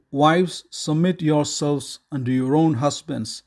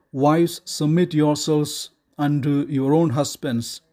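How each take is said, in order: Both takes have the same delivery.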